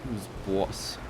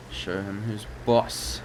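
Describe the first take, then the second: First: Terrible Boston take on boss; Boston accent. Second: Slow, badly faked Boston accent. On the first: Pretend. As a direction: lean on a bad Boston accent. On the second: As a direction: drag out a bad Boston boss. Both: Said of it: "Very terrible Boston accent".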